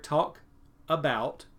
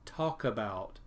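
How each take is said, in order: First: The two words are said separately. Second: The k sound is joined onto the next word. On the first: The speaker calls it wrong. "I have two words here" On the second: The speaker calls it right. "The K goes with the A"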